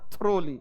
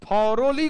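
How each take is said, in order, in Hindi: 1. इसे दो अक्षरों में बोला जाता है: thro-ly। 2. इसे तीन अक्षरों में बोला जाता है: tho-ro-ly। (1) "बोल रहा था थ्रोली" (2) "थॉरोली को"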